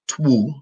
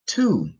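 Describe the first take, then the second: First: A W sound is pronounced after the T. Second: No W sound is pronounced after the T. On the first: The speaker calls it wrong. "not twu" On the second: The speaker calls it right. "but two"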